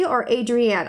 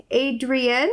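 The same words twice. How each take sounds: First: "Adrienne" said as AY-dree-ann, ending in an open ann; second try at "Adrienne", AY-dree-ann; "Adrienne" with the last syllable as ann; other pronunciation. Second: First guess at "Adrienne", AY-dree-un; "Adrienne" tentatively, with the last syllable as un; trying a pronunciation. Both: Shown as a demonstration. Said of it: "sorry if I'm pronouncing it wrong".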